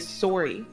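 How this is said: It is said with a Canadian vowel. "In uh, Canada, they say sorry"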